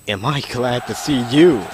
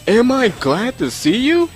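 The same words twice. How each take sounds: First: It is said as an exclamation, voice falling. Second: It is said as a question, voice rising.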